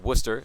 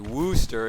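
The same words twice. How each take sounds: First: The name gets the usual local pronunciation. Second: The name gets an unfamiliar outsider pronunciation. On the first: This is how most people say the name. The speaker calls it right. "as most people say" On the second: This is how someone unfamiliar with the name says it. The speaker calls it wrong. "you might say Worcester if you've never heard it"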